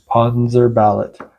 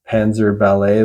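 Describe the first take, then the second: First: The name ends with a clear T sound. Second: The name ends without a T sound. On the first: The speaker calls it right. "there's an extra T at the end" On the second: The speaker calls it wrong. "like ballet the dance style"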